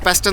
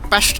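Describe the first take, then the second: First: The consonant before the t is s. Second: The consonant before the t is sh. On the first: This is how outsiders say it. "നമ്മൾ പെസ്റ്റ് എന്ന് പറയും" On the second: This is how locals say it. "എസ് ഇവർ ഷ് എന്നാണ് പ്രൊനൗൺസ് ചെയ്യുന്നത്"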